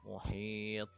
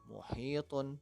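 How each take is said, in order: First: The word ends on a bounced final consonant. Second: The word ends with the full -un ending. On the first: The reader stops at this word. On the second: The reader continues without stopping.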